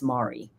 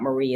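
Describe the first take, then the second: First: The name rhymes with sorry. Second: The name is said like Marie. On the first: The speaker calls it right. "It's Mari. / Mari rhymes with sorry" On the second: The speaker calls it wrong. "and it's not Marie"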